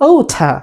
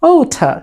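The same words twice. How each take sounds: No difference in how they are said.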